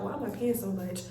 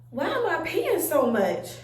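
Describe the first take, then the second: First: Low, soft muttered wondering; quiet, lower aside in thought; questioning herself. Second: Puzzled, exclaimed self-questioning; acted bewildered wondering; baffled question. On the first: Retold or imitated. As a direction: mutter it privately to yourself. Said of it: "I just was questioning myself". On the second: Acting out her own puzzled reaction.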